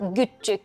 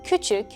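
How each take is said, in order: First: The word starts with a g sound. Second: The word starts with a k sound. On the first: This is the regional dialect form. "becomes güççük" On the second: This is the standard form. "küçük becomes güççük"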